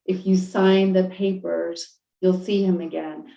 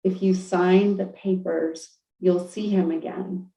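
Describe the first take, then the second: First: Slow, even repeat of the promise; calm divine voice. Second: Calm divine voice. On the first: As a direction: say it again, patient and unhurried. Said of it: "the voice just kept saying it". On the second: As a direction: tell her gently, without hurry. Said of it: "the voice was like". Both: Retold or imitated.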